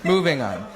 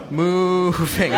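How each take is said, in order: First: Said in the usual way. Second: "Moving" stretched slowly into a long moo; milk the first syllable of "Moving" like a cow's moo; slow, punning "Moving", first vowel held long; drawn-out MOVING. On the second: Acted. Draws out the cow pun.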